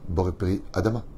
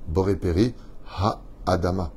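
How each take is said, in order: First: The syllable ha is dropped before adama. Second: The syllable ha is clearly pronounced before adama. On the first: The speaker calls it wrong. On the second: The speaker calls it right. "On sait déjà à l'avance qu'on va dire"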